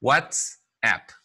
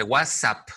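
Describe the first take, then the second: First: "WhatsApp" split as "whats-app" with clear ts; careful model "WhatsApp", two distinct parts; correct pronunciation demo. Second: "WhatsApp" run together as "wasap", no t; wrong pronunciation demo. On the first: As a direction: say "WhatsApp" in English, sounding the t. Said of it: "No se dice WhatsApp, no". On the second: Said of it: "No se dice WhatsApp". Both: Shown as a demonstration.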